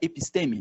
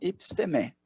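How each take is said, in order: First: The stress falls on a syllable before the last. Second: The stress falls on the last syllable. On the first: This is how people commonly say it. The speaker calls it wrong. "A gente fala episteme" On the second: This is the more correct Greek form. The speaker calls it right. "epistemé é o mais adequado"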